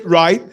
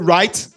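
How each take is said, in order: First: The word is clipped and not fully pronounced. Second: The word is fully and completely pronounced. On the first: This is how Americans say it. "they don't pronounce the words completely" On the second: This is how Nigerians say it. "while we will say right"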